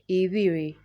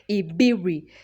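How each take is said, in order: First: The middle B is soft and glided over quickly. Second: The middle B is pronounced hard and strongly. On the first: This is how native speakers say it. The speaker calls it right. "you never read the B hard. You just go like" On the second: This is how someone reading it like English would say it. The speaker calls it wrong. "like they want to read the B hard"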